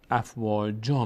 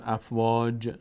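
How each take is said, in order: First: افواجا ending on a long a, slow; pausal form. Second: افواج cut off without the a; rejected reading افواج; wrong pausal form. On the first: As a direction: end افواجا with a clear long a. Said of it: "میگیم". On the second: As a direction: drop the ending of افواج. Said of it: "ما دیگه نمیگیم". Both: Shown as a demonstration.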